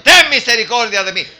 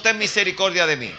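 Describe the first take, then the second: First: Loud, raised-pitch plea; top-of-lungs cry. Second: Said in the usual way. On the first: Acted. Blind man begs Jesus for mercy, shouting. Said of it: "Gritando a voz en cuello".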